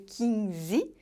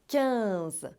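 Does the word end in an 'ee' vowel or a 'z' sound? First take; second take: ee vowel; z sound. First: The word ends with an added 'ee' vowel. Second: The word ends with a plain 'z' sound. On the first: The speaker calls it wrong. "você não pode fazer som de i no final de quinze? Não é para dizer quinze?" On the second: The speaker calls it right. "você tem que fazer o som do Z no final"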